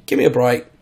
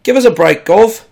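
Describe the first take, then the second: First: Said in the usual way. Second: Loud, high cockney Give us a break, Gov. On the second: Shown as a demonstration. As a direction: ham it up like a London cabbie. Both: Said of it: "that's a bit more cockney there".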